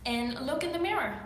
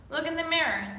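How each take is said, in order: First: Said in the usual way. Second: Repeated louder, stress on mirror; emphatic repeat. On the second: Real, not acted. Coach urging viewers, firmly stressing "mirror". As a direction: hammer home "mirror" with a falling tune.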